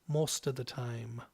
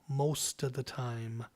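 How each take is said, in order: No difference in how they are said.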